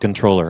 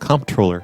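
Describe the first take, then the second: First: It is said with no M or P sound. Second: It is said with an M and P sound. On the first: "I don't want to call it the controller" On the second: "I think it sounds cooler if it's comptroller. I'm just going to keep saying it wrong"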